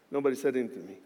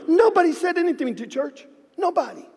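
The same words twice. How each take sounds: First: Low and hushed, letting it sink in; quiet. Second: Building emphasis. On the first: Retold or imitated. Pastor telling the church nobody answered, hushed and low. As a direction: drop the voice low to the silence. Quietly recounting months of silence. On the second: Acted. Pastor stressing that nobody spoke to the church, high and emphatic. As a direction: push nobody up high in disbelief. Escalating repeat of the silence.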